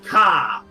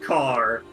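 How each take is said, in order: First: The final R is dropped, Eastern Coast style. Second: The final R is pronounced, standard style.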